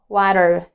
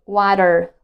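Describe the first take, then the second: First: The middle T is a quick D-like flap. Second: The middle T is a quick D-like flap.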